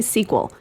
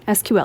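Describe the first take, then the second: First: It is spoken as one single word. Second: Each letter is spoken separately. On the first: "You can also say" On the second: "You can say the letters"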